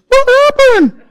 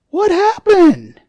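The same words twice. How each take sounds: First: It is said in a scared Mickey Mouse voice. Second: It is said in a normal voice.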